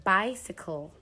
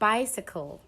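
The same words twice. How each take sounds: The two takes are said the same way.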